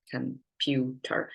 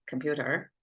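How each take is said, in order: First: "computer" slowly broken into com, pu, ter; syllable by syllable. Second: Said in the usual way. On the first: Shown as a demonstration. Teacher counting the syllables for listeners, "computer" split syllable by syllable. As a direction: say "computer" as three separate, drawn-out syllables. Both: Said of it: "in English is three syllables".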